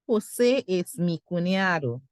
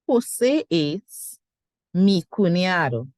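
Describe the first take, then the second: First: The sentence is said smoothly without a break. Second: The sentence is broken up with a pause. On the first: "And then you say it together" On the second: "You could still separate the sentence"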